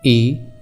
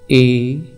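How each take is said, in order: First: The vowel is held for about one second. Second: The vowel is held for about two seconds. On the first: "लगभग एक second तक इन वर्णों का उच्चारण होगा" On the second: "जिनके उच्चारण में इनका दुगना समय लगेगा"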